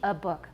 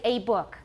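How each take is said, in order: First: The article is short with a schwa. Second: The article has a full, clear vowel. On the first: The speaker calls it right. "Short, and it's a schwa" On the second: The speaker calls it wrong. "they might say a book"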